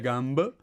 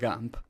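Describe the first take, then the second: First: The final consonant is voiced, like b. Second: The final consonant is voiceless, like p. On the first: The speaker calls it wrong. "mia gamb" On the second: The speaker calls it right. "ma gamp, perfetto"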